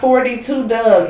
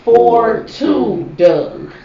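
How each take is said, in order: First: The number is read as one number, forty-two. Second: The number is read as two digits, four two. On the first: The speaker calls it wrong. "It is not 42 Doug" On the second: The speaker calls it right. "It is 4-2 Doug"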